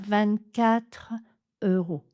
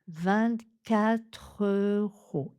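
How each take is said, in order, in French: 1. Il y a une pause après vingt-quatre. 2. Les mots s'enchaînent sans pause. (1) "On ne coupe pas le souffle après vingt-quatre" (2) "On enchaîne directement avec la première syllabe de euro"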